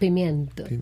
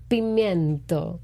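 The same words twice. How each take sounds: First: The word is said at a normal pace. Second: The word is said slowly and deliberately.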